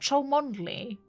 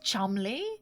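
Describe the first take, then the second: First: The name is said with all its letters sounded. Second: The name is said as two short syllables. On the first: The speaker calls it wrong. "Not Cholmondeley?" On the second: The speaker calls it right. "Is it just Chumley?"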